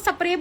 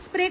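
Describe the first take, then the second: First: It has a Punjabi-style pronunciation. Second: It has a plain standard pronunciation.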